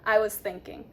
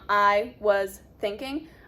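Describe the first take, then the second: First: The S blends straight into the next sound. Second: The S and TH are said separately. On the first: The speaker calls it right. "See how they blend?" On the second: The speaker calls it wrong.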